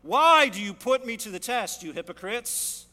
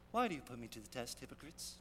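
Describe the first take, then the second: First: Booming, forceful accusation; stern rebuke. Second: Soft, gentle and a bit quick; mock-sweet, softly spoken rebuke; sweet and meek. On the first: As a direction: thunder it straight at them. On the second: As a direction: say it sweetly, almost timidly. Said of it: "I doubt he said it very sweetly". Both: Shown as a demonstration.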